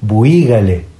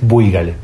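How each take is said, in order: First: The stress falls on the vowel i. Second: The stress falls on the vowel u. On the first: This is the form used in Coahuila. "Tiene acento en la I" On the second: This is the form used in the local area. "Pero que suena fuerte la U"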